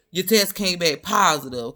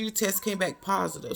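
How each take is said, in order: First: Louder, mocking echo of the doctor; mocking the doctor's words, louder; mocking repeat. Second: Said in the usual way. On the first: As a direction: throw her words back with sass. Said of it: "You can't be ... talking about". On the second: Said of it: "she was like".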